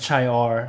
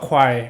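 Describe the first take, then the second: First: The word begins with ch, like chee-or. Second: The word begins with a kw sound, like kwire. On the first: The speaker calls it wrong. "หรือ" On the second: The speaker calls it right. "เขาอ่านว่าควายนะครับ"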